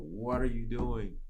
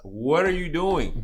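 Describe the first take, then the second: First: Slow, drawn-out question at usual pitch; imitated puzzled driver, unhurried; mild retold bafflement. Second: Loud, high, drawn-out mock disbelief; exaggerated retold astonishment; incredulous imitation. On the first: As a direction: stretch the question out, mildly puzzled. Retells driver questioning him from car. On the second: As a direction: stretch it out louder and higher, imitating a baffled driver. Retells driver questioning him, emphatic repeat.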